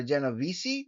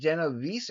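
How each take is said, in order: First: Genovese ending in "-vee-see"; preferred name pronunciation. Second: Genovese ending in "-veese", no final vowel; alternative name pronunciation. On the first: Vlogger settling on a subscriber's surname, Genovese ending "-vee-see". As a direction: sound the last E of Genovese as "ee". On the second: Vlogger trying out a subscriber's surname, Genovese ending "-veese". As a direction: say Genovese with a silent last E. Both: Shown as a demonstration. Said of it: "That's probably the more correct pronunciation".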